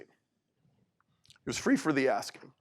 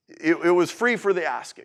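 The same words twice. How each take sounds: First: Slow and soft, let "free" sink in; slow soft repeat. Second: Said in the usual way. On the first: Shown as a demonstration. Speaker repeats the gift gently to the audience, slow and soft.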